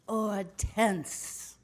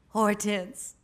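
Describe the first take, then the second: First: The name is pronounced the French way. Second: The name is pronounced the plain English way.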